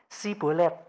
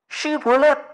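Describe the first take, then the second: First: The word begins with a plain s sound. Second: The word begins with a sh sound. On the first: The speaker is an Ephraimite who cannot say sh. The speaker calls it wrong. "orang Efraim nggak bisa ngomong Ash. Dia bisanya S" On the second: This is the form the listener is told to say. The speaker calls it right. "kamu ngomong Shibolet"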